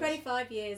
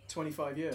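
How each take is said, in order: First: It is said at a louder volume. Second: It is said at a quieter volume.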